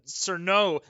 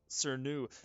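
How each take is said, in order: First: The name ends with an 'oh' vowel. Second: The name ends with an 'oo' vowel. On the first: "I know it's not right, but you know what? It sounds better" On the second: "I hate saying the new. That doesn't sound right"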